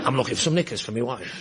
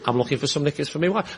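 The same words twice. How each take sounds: First: It is muttered out of the side of the mouth. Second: It is said in a timid, awkward voice. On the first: The man acts like a casual, worldly type. "with an imaginary woodbine in the corner of my mouth" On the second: The man is inexperienced and uneasy in such a shop. "in that voice that suggests this bloke has never been in a shop like this before"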